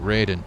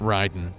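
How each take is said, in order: First: The name is said with English pronunciation. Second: The name is said with Japanese pronunciation. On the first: The speaker calls it wrong. "they just didn't know how to pronounce it. So they pronounce it Raiden" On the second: The speaker calls it right. "would actually be pronounced Raiden"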